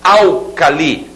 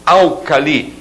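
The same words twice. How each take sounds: The two takes are said the same way.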